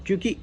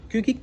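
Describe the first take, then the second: No difference in how they are said.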